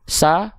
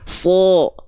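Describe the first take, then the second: First: The syllable sounds thin, with a clear a. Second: The syllable sounds thick, with an o-like vowel. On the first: "asalnya ra, sa" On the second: "sekarang angkat pangkal lidahnya"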